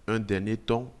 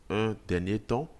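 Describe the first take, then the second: The two takes are said the same way.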